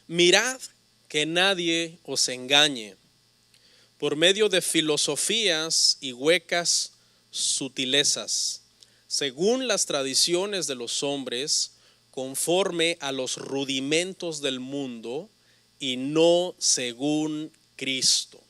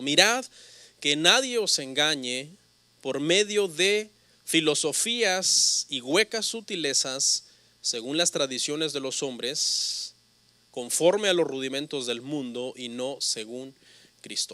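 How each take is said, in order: First: It is read at a normal pace. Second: It is read quickly.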